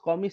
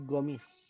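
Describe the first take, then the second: First: The word begins with a k-like sound. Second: The word begins with a hard g sound.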